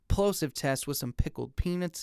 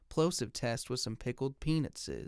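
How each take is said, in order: First: The deepest bass is cut a little. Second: The low bass is left fully intact. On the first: "Now here is the fifty hertz high pass filter" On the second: "Here's the microphone in flat mode"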